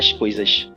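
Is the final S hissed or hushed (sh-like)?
hushed. The final S is a Recife-style hushed sh.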